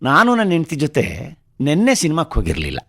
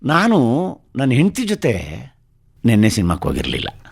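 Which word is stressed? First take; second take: ನಿನ್ನೆ; ಹೆಂಡತಿ. First: The word for yesterday is stressed. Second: The word for wife is stressed. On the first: They went to the cinema, but on another day. "ಆದರೆ ನೆನ್ನೆ ಅಲ್ಲ, ಯಾವತ್ತೋ ಬೇರೆ ದಿವಸ" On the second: The cinema trip happened, but not with the wife. "ನೆನ್ನೆ ಸಿನಿಮಾಕ್ಕೆ ಹೋಗಿದ್ದೆ, ನನ್ನ ಹೆಂಡತಿ ಜೊತೆ ಹೋಗಿರಲಿಲ್ಲ"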